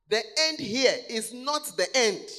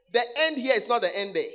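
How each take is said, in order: First: Preacher leans hard on the word not, then falls; stress on not. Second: Said in the usual way. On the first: Shown as a demonstration. Preacher correcting his flock, stress on not.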